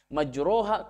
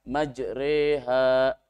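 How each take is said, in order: First: The vowel after r is a full a. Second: The vowel after r sounds between a and i. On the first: The speaker calls it wrong. "ke fathah sempurna" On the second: The speaker calls it right. "antara fathah dengan dengan kasroh"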